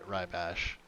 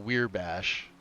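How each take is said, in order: First: The first word sounds like 'rye'. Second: The first word sounds like 'weir'. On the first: The speaker calls it right. "It's it's rye bash" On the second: The speaker calls it wrong. "or weir bash"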